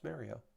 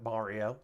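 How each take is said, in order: First: Mario is said with a New Jersey pronunciation. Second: Mario is said with the usual pronunciation. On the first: The speaker calls it right. "from where he is in the Jersey, New York region, it's Mario" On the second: The speaker calls it wrong. "It's not Mario"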